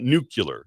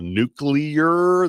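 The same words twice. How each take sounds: First: The word has a regional Ozarks-style pronunciation. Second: The word has its standard pronunciation. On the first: The speaker calls it wrong. "not nuclear" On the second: The speaker calls it right. "That's how it's pronounced"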